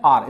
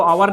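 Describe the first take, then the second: First: आर said as one syllable, like 'are', no w glide; correct pronunciation of our. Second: आवर said in two syllables, aa-var with a w glide; wrong pronunciation of our. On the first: Teacher showing students the right way to say our. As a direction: say आर short and clean, rhyming with car. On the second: Teacher showing students the wrong way to say our. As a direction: stretch आवर into two beats as the common mistake. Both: Shown as a demonstration. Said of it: "इसको आवर नहीं बोलते".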